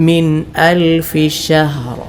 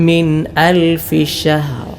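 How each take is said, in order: The two takes are said the same way.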